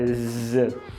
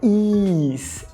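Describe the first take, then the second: First: The vowel is a short I sound. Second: The vowel is a long I sound. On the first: It is the verb to be. The speaker calls it right. "é o I curto" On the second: It sounds like the word meaning ease. The speaker calls it wrong. "não é com o I longo, não é is"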